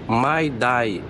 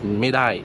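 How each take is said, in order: First: It is said carefully as two distinct words. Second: It is said casually, the words run together. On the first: This is the standard form. "Ça se dit my die" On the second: This is how people say it in everyday speech. "quand ils parlent, ils disent médaille"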